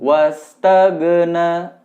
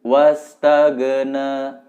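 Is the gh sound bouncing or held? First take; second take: bouncing; bouncing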